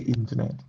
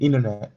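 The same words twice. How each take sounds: First: It is said in a British accent. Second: It is said in an American accent. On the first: "I say internet" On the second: "Americans say internet"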